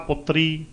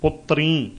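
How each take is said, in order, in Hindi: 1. अंतिम स्वर सादा है, अनुनासिक नहीं। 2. अंतिम स्वर अनुनासिक है। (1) "ਜੇ ਉਚਾਰਨ ਕਰ ਦਿੱਤਾ ਪੁੱਤਰੀ, ਤਾਂ ਪੁੱਤਰੀ ਤਾਂ ਗੁਰੂ ਨਾਨਕ ਸਾਹਿਬ ਦੇ ਹੈ ਨਹੀਂ ਸੀ" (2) "ਬਹੁਵਚਨ, ਪੁੱਤਰਾਂ ਨੇ"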